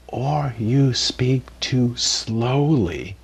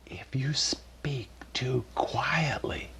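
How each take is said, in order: First: Very slow, dragged-out words; speaking too slowly. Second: Soft unvoiced whisper, barely audible; whispering too quietly. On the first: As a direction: stretch every word to show talking too slowly. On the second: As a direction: drop to a whisper to show speaking too quietly. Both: Shown as a demonstration.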